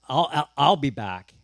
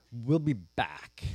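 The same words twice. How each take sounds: First: Loud, repeated stress on "I'll"; stammered correction. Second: Very slow, low and hesitant "we'll be back"; halting promise. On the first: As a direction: stumble on "I'll" and punch it out. Abraham stammers a corrected promise. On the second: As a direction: stretch out "we'll be back" uncertainly. Abraham's evasive promise to servants. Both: Acted.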